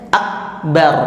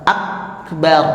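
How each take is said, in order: No difference in how they are said.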